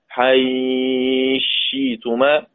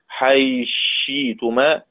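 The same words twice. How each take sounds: First: The vowel before the merge is held medium. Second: The vowel before the merge is held briefly. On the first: "توسط" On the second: "قصر"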